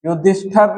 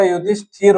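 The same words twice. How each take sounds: First: युधिष्ठर with a short a before the final r; "युधिष्ठर", no i in the last syllable; wrong form said. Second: युधिष्ठिर with a clear i before the final r; "युधिष्ठिर", i in the last syllable; correct form said. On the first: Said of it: "युधिष्ठर नहीं होता". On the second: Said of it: "युधिष्ठिर होता है". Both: Shown as a demonstration.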